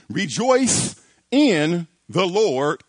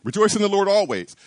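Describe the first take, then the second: First: "Rejoice in the Lord" drawn out slowly, every word weighted; slow command. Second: "Rejoice in the Lord always." run off fast, weight on "rejoice"; quick recitation. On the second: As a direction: rattle the verse off briskly. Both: Shown as a demonstration. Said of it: "Here's the command".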